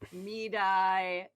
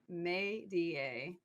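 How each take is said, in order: First: The name is said with two syllables. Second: The name is said with three syllables. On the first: The speaker calls it wrong. "everyone says like Medi" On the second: The speaker calls it right. "It's May-D-A"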